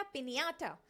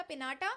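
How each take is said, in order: First: पिन्याटा with ny glide; Spanish ñ sound. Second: Said in the usual way. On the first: Shown as a demonstration. Teacher contrasting पिन्याटा with पिनाटा. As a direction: contrast पिन्याटा against plain n. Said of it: "एन के ऊपर हमने थोड़ा stress दे के". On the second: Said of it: "पहले पढ़ा था पिनाटा".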